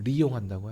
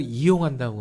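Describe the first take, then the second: First: The word begins with an r sound. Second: The word begins with a vowel sound. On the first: This is the North Korean form. "북한은 리용한다고 하죠" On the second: This is the South Korean form. "우리는 뭔가를 이용한다고 하지만"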